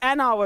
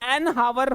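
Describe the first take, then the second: First: The word starts directly with a vowel sound. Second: The word starts with an h sound. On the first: The speaker calls it right. "एच तो नहीं आती" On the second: The speaker calls it wrong. "मैं भी हावर हावर कर रहा हूं"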